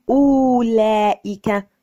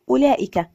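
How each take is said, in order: First: أولئك loud and slow, with a long "oo"; mispronounced silent waw. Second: أولئك with short first "u"; correct silent waw. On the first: Teacher showing the wrong reading, أولئك drawn out as oo-laa-ika. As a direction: stretch the first vowel of أولئك as if reading the waw. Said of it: "لا نقول". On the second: Teacher reading it properly, أولئك with short opening vowel. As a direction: say أولئك as ula'ika, waw unvoiced in speech. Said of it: "فالواو فيها مكتوبة لكنها لا تنطق". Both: Shown as a demonstration.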